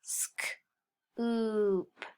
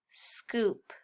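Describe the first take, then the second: First: "sk-, oop" as voiceless sk, pause, long oop; sounded out. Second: Said in the usual way. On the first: Shown as a demonstration. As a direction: sound out "sk-, oop" in two parts.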